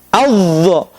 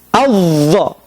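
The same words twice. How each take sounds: The two takes are said the same way.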